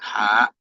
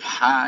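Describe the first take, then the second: First: The syllable is pressed and cut off with a catch. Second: The syllable ends on a soft, open vowel. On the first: The speaker calls it wrong. "jangan ditekan, jangan hak" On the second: The speaker calls it right. "tapi ha aja"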